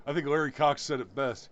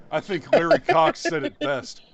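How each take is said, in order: First: Said in the usual way. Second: Higher and louder, thrown out with a flourish; raised emphatic voice. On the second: Real, not acted. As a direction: announce it like a punchline. Restarts the line in a raised voice.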